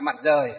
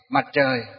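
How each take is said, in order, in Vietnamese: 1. Từ thứ hai bắt đầu bằng âm r thường, không uốn lưỡi. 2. Từ thứ hai bắt đầu bằng âm tr uốn lưỡi. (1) "các cụ ngày xưa, ví dụ như đọc như là Mặt Rời" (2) "đọc nó chuẩn theo á ... hơi uốn lưỡi lên một chút"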